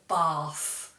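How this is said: It has a southern English long vowel.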